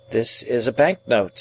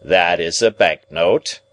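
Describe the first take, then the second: First: Higher-pitched, no extra force; tentative young ward. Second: Slow, firm restatement; deliberate lawyer repetition. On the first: Ward tells guardian what he holds, higher and tentative. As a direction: report it in a higher young man's voice. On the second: Guardian confirms what his ward holds, slow and emphatic. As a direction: repeat it slowly for the record. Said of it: "repeated Mister Jaggers". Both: A narrator's reading.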